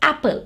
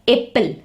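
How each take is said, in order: First: The first vowel is short, as in cat. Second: The first vowel is long, like its letter name. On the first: The speaker calls it right. "you say it as apple. So this is short sound of letter A" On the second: The speaker calls it wrong. "You don't say it as apple"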